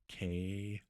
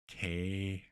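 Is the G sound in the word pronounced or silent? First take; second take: silent; silent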